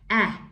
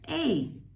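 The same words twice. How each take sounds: First: A short vowel, like the sound in cat. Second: A long vowel, like the sound in acorn. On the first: "the first vowel sound is just the short sound" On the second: "the long sound ... It just says its name"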